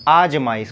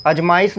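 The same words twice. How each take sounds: First: आजमाइश with a long open first आ; correct form. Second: अजमाइश said with a short first a; wrong form. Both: Shown as a demonstration. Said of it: "अजमाइश नहीं आजमाइश".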